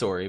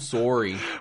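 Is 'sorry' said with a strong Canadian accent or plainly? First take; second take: plain; Canadian. First: It is said in a plain, neutral accent. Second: It is said in an exaggerated Canadian accent. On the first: "He says sorry" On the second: "it's not like oh oh I'm s- I'm sorry"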